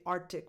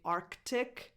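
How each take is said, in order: First: The C before the T is dropped entirely. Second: The C before the T is fully sounded. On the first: "you can drop it and say Arctic Monkeys, which is technically wrong" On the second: "you can pronounce the C and say Arctic"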